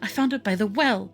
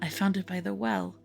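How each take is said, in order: First: It is said loudly, in a distressed way. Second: It is said quietly and softly. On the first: She is upset and calling out. "like distressed and loud" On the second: She is speaking in a subdued way. "or if she's supposed to be quiet"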